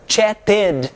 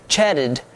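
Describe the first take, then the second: First: "chatted" as chat-TED, with a hard T and full "ed"; wrong heavy -ed. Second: "chatted" as "chadded", the T softened to a flap; correct soft -ed. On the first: English teacher showing students the mistake, "chatted" with a heavy "ted". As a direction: overpronounce the ending of "chatted" as a separate "ted". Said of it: "Você não diz chatted". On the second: English teacher showing students how it is said, "chatted" with a soft ending. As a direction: say "chatted" lightly, barely touching the final D. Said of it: "É bem suave". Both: Shown as a demonstration.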